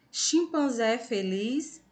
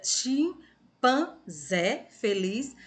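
First: Said in the usual way. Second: "chimpanzé" very slowly broken into chim, pan, zé; syllable by syllable. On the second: Shown as a demonstration. Teacher rereads for pupils after a slip, "chimpanzé" syllable by syllable. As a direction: draw out "chimpanzé feliz" with a gap after each syllable.

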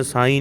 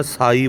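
First: ਸਾਈਂ with nasal long ee; nasalised ending. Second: ਸਾਈ with a pure oral ee; no nasal. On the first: Teacher shows the common slip, ਸਾਈਂ with nasal ending. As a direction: say ਸਾਈਂ, humming the end through the nose. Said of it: "ਸਾਈਂ ਨਹੀਂ ਕਹਿਣਾ". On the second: Teacher corrects learners, ਸਾਈ without nasal ending. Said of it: "ਸਾਈ ਬੋਲਣਾ". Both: Shown as a demonstration.

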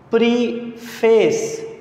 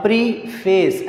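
First: प्रीफेस said slowly, syllable by syllable, pree-fes; split into syllables. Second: Said in the usual way. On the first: Shown as a demonstration. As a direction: stretch प्रीफेस into its two syllables. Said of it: "इसके अंदर देखें दो सांस, आपके दो sounds". (प्रीफेस को धीरे, दो हिस्सों में तोड़कर बोलो) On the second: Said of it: "प्रीफेस ऐसे कहना पड़ रहा है".

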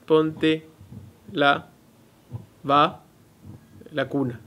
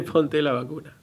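First: "Ponte la, va, la cuna" with a pause after each piece; "Ponte / la / va / la cuna", chopped apart by pauses; split into pieces. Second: "Ponte la vacuna" said smoothly as one phrase; "vacuna" said as one word, with no breaks; run together as "vacuna". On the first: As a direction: break it up so "la cuna" stands out as a separate word. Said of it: "Pero ella dice". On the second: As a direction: join the pieces into the word "vacuna". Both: Shown as a demonstration.

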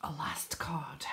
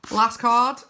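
First: Very soft, breath-only whisper; hushed echo of an announcement. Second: Raised, punchy call; loud announcement. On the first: Repeats it in a whisper. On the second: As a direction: announce the final card out loud. Announces the final card. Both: Real, not acted.

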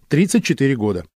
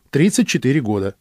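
Both takes have the same delivery.

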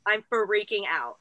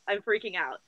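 First: FREAKING stretched out, fuh-REAKING, low and slow; "freaking" broken into a slow, emphatic fuh-reaking; drawn-out freak-out. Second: Said in the usual way. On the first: Real, not acted. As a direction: draw out the first sound of "freaking" for emphasis.

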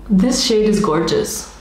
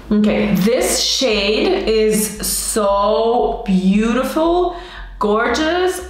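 First: Said in the usual way. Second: Drawn-out gushing. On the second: Shown as a demonstration. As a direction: drag each word out in awe. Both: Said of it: "camera's not focusing".

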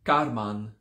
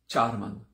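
First: "karman" begun with a hard ka; KA replacing cha. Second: "charman" begun with cha; CHA at the start. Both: Shown as a demonstration. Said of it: "replace the cha with a ka".

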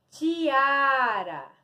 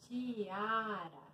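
First: Stretched teacher's model word; drawn-out word reveal. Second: Much softer, lower "Tiara"; soft repeat. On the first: Shown as a demonstration. Teacher revealing a word to pupils, drawn out. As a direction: present it clearly, drawing out "tiara". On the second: Real, not acted. Teacher echoing the word to herself, very soft. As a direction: repeat it under your voice, drawn out.

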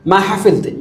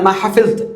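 The two takes are said the same way.

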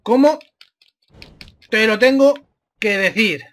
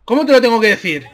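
First: Broken up with long pauses; exasperated word by word. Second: Fast, slightly raised outburst; exasperated quick question. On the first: Gamer spelling it out for a stubborn opponent, exasperated word by word. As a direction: separate "Cómo", "te lo tengo", "que decir". Repeats question slowly, piece by piece. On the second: Gamer fed up with an opponent ignoring orders, exasperated quick question. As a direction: fire it off in one run. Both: Real, not acted.

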